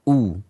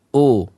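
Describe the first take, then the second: First: A full u vowel with lips pushed forward. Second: A lax vowel that drifts toward o. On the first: The speaker calls it right. "kedua bibir kita, ya, mencucu atau maju" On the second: The speaker calls it wrong. "Ini adalah ucapan yang kurang sempurna"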